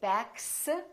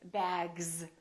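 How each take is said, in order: First: The word ends with a voiceless S sound. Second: The word ends with a voiced Z sound. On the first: The speaker calls it wrong. "we don't say backs" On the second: The speaker calls it right. "we say bags"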